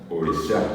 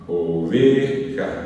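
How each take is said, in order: First: The stress is on the last syllable. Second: The stress is on the second-to-last syllable.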